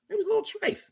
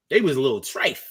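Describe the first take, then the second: First: A teasing high-pitched echo, almost a falsetto; squeaky high repeat. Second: Said in the usual way. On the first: Shown as a demonstration. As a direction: jump way up and go soft on the repeat.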